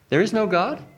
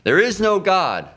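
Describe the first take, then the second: First: The voice rises at the end. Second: The voice falls at the end. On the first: It implies a question and invites more explanation. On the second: It is a plain claim.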